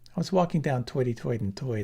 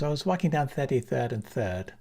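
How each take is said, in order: First: It is spoken in a Brooklyn New York accent. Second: It is spoken in a Ghanaian English accent. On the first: "I had to throw in the Bronx, Brooklyn" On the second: "Ghanaian is"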